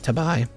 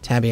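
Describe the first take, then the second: First: The word ends with an 'eye' sound. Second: The word ends with an 'ee' sound. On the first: The speaker calls it right. "I'm going to pronounce it Tabai" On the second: The speaker calls it wrong. "I'm not going to pronounce it Tabby"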